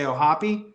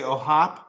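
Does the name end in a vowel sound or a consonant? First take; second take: vowel; consonant. First: The name ends on an 'ee' vowel sound. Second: The name ends on a consonant sound. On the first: The speaker calls it right. "So that is the correct way to say it" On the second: The speaker calls it wrong. "Some people say Ohop"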